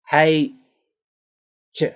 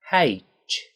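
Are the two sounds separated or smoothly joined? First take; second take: separated; smooth. First: The two sounds are said apart, with a break. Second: The two sounds are joined into one smooth sound. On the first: The speaker calls it wrong. "they separate these into two separate sounds" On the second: The speaker calls it right. "We need to make these one smooth sound"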